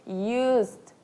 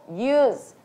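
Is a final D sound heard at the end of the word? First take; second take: yes; no. First: The word ends with an audible D sound. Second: The word ends without any D sound. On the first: The speaker calls it wrong. "acabei de falar aqui de gaiata que eu sou" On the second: The speaker calls it right. "você não fala esse D"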